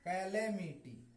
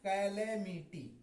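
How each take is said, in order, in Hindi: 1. पहला स्वर 'cat' जैसा बोला जाता है। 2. पहला स्वर 'cat' जैसा बोला जाता है।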